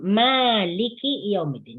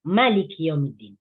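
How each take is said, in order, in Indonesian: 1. Vokal pertama Malik panjang. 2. Vokal pertama Malik pendek.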